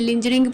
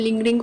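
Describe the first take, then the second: First: The middle consonant is a soft j sound. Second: The middle consonant is a hard g sound. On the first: The speaker calls it wrong. "लिंजरिंग pronounce नहीं करेंगे" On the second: The speaker calls it right. "लिंगरिंग pronounce करेंगे"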